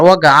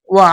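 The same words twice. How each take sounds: First: ওয়াগা said with a throaty gh at the end; with the ghayn sound. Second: ওয়া said as a plain open wa, no gh sound; without the ghayn. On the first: Teacher showing viewers the ghayn ending, ওয়াগা with a throaty gha. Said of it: "যদি গয়েন উচ্চারণ করে তাহলে বলবে mobile ওয়াগা". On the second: Teacher showing viewers the simple ending, plain ওয়া without ghayn. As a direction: stop on ওয়া, drop the throaty ending. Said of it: "গয়েন উচ্চারণ যদি না বলে তাহলে বলবে ওয়া". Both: Shown as a demonstration.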